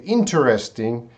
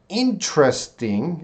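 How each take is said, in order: First: "interesting" as IN-ter-es-ting; "interesting" with every vowel sounded; four-syllable interesting. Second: "interesting" slowly as IN-tres-ting; "interesting" with the middle E dropped; three-syllable interesting. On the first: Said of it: "that's gonna be four". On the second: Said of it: "is three". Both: Shown as a demonstration.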